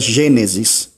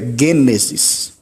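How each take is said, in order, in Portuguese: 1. A primeira consoante tem som de G fraco. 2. A primeira consoante tem som de G forte. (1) "nós utilizamos a palavra com Gênesis" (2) "no grego é Gênesis, porque o G, o gama, ele tem som de G, ou seja, como em gato"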